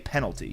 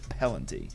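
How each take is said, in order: First: The word is said in its standard form. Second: The L and N sounds are swapped. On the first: The speaker calls it right. "he doesn't say penalty" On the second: The speaker calls it wrong. "He says penalty"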